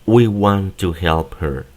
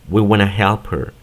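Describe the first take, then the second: First: Each word is said separately and slowly. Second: 'Want to' is run together as 'wanna'. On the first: "Esta es la pronunciación palabra por palabra y de forma lenta" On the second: "el want to lo pronuncian como wanna"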